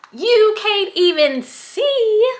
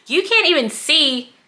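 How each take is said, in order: First: High, slow Southern twang on every word; southern accent. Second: Said in the usual way. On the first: Shown as a demonstration. Vlogger complaining about tiny scrunchies, in a Southern accent. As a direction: let a Southern accent slip out, drawn out. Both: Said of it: "my southern accent is coming out now".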